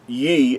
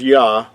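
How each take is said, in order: First: The syllable is said with an 'eh' vowel. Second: The syllable is said with an open 'ah' vowel. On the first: The speaker calls it wrong. "and not in in Ye" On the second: The speaker calls it right. "would be pronounced as Yah"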